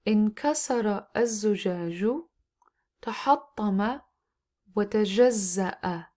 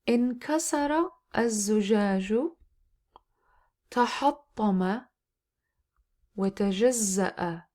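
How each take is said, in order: First: The sentence is read at a faster pace. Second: The sentence is read at a slow pace. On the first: "then I pick up a faster pace" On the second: "once I read slowly"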